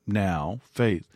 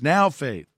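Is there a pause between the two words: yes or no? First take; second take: yes; no. First: There is a pause after now. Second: The two words run together without a pause.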